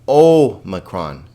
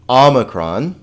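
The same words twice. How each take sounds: First: The first vowel sounds like 'oh'. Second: The first vowel sounds like 'ah'. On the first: The speaker calls it wrong. "let's be careful here that we don't say omicron" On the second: The speaker calls it right. "very hard to distinguish from the alpha, ah"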